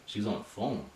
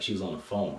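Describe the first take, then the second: First: "She was on the phone?" as a disbelieving question, "phone" stressed; husband doubting his wife, hushed; incredulous question. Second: "She was on the phone." said flatly, falling on "phone"; wife calmly stating what she saw; plain matter-of-fact statement. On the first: Husband questioning wife's claim, disbelieving. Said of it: "I was like". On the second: Wife telling husband calmly, plain statement. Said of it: "my wife was like". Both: Retold or imitated.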